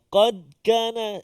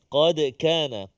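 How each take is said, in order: First: The d of qad is stopped flat without bounce. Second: The d of qad has a slight echoing bounce. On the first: The speaker calls it wrong. "Hilang atau tak tak bunyi qalqalah tu" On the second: The speaker calls it right. "Qalqalah sughra ataupun kecil sahaja berada di tengah kalimah"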